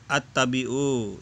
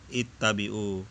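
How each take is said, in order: First: The word begins with an 'a' vowel. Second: The word begins with an 'i' vowel. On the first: The speaker calls it wrong. "dia membaca at-tabi'u" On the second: The speaker calls it right. "yang benar adalah ittabi'u"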